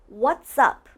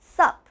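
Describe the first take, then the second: First: Both words are said, blended together with the s. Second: It is shortened to a single syllable. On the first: The speaker calls it right. "It's almost like what's and up are blended, like they're connected" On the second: The speaker calls it wrong. "some people even just say sup"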